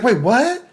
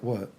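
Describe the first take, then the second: First: High, loud, imitated disbelief; put-on high voice of shock; startled mock reaction. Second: Said in the usual way. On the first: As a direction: blurt it as a stunned woman, hammed up. Voices her startled reply.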